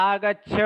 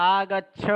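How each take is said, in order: Both takes have the same delivery.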